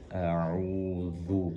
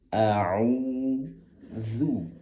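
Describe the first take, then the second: First: The consonant is said thick and heavy, like dha. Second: The consonant is said thin and light, as zal. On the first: The speaker calls it wrong. "akan melafalkan zal dengan sifat tebal sehingga menjadi dha" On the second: The speaker calls it right. "Maka kembalikan menjadi a'udzu"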